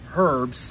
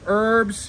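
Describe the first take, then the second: First: The word is said in a British accent. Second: The word is said in a plain accent.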